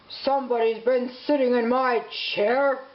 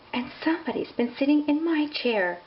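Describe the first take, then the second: First: It is growled gruffly. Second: It is sighed softly.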